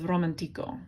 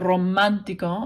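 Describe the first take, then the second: First: The stress is on the syllable ti. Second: The stress is on the syllable man. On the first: The speaker calls it wrong. "the automatic emphasis would be on ico, the second to last syllable" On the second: The speaker calls it right. "It has an accent mark on the A. That, that makes you say uh, romántico"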